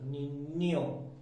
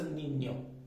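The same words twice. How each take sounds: First: The ny sound is pressed hard and exaggerated. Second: The ny sound is said lightly and normally. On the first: It is said this way only to help understanding. "we will put extra pressure" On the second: This is how it is usually said. "it will normally call as Ninyo"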